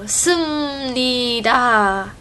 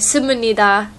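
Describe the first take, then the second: First: It is said with a Chinese accent. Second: It is said with a Japanese accent.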